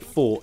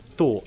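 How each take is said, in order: First: The word begins with an f sound. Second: The word begins with a th sound. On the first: The speaker calls it wrong. "not fought" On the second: The speaker calls it right. "I said thought"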